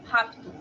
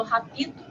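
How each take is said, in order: First: Rapto in two syllables, p straight into t with no vowel; correct pronunciation. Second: Rapito with an extra i sound between p and t, ra-pi-to; wrong pronunciation. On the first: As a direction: say rapto as rap-to, no i between p and t. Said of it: "eu falo rapto". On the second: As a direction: say rapito in three syllables, adding the i. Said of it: "Eu não falo rapito". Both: Shown as a demonstration.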